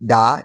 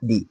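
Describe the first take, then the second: First: The word ends with a short 'uh' vowel. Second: The word ends with an 'ee' vowel. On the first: It comes before a word starting with a consonant. "অর্থাৎ দা বসে কনসোনেন্টের আগে।" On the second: It comes before a word starting with a vowel. "যে শব্দতে vowel থাকবে এবং এর আগে দা T H E থাকবে তার উচ্চারণ দি হবে।"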